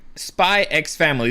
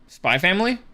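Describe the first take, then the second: First: The letter X is spoken aloud. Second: The letter X is left out. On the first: The speaker calls it wrong. "you're not supposed to pronounce the X" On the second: The speaker calls it right.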